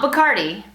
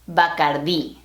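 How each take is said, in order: First: The stress falls before the last syllable. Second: The stress falls on the last syllable. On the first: The speaker calls it wrong. "Not Bacardi" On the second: The speaker calls it right. "Notice that accent on the I"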